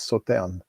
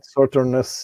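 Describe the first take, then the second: First: The final S sound is silent. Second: A final S sound is pronounced. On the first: The speaker calls it right. "you don't pronounce the S" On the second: The speaker calls it wrong. "not Sauternus like some say"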